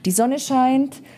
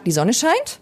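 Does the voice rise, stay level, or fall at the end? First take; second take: level; rise. First: The voice stays level at the end. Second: The voice rises at the end.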